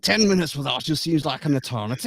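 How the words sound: It is said in a put-on Scottish accent. "Now you got to imagine that in a Scottish voice"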